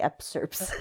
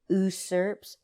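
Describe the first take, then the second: First: The word begins with an added 'ups' sound. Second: The word begins with a plain 'us' sound. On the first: The speaker calls it wrong. "because I would try to say upsurps" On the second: The speaker calls it right. "I had to learn how to say usurps"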